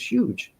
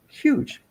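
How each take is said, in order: First: Said in the usual way. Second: "huge" pitched way up; emphatic "huge". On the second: Real, not acted. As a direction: let "huge" leap high in wonder. Repeats the word for awe.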